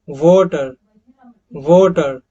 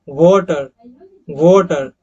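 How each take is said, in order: No difference in how they are said.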